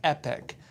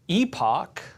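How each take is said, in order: First: The second syllable sounds like 'ick'. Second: The second syllable sounds like 'ock'. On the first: "the American pronunciation is Epic" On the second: "Epoch is the sophisticated Queen's English"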